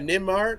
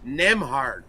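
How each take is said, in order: First: The name is said like 'Nimrod'. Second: The name is said like 'Nemhard'. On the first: The speaker calls it wrong. "I mispronounced the guy's name" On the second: The speaker calls it right. "It's it's Nemhard"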